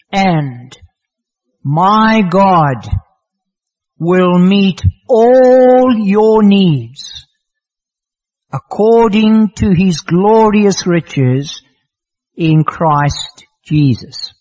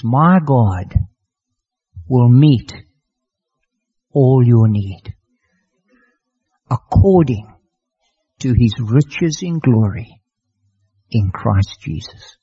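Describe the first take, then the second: First: Proclaimed scripture. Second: Reverent closing verse. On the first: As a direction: ring the verse out with weight. Reads the key verse aloud. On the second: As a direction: let the promise settle gently. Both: Acted.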